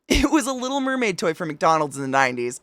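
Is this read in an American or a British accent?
American. It is read in the speaker's usual accent.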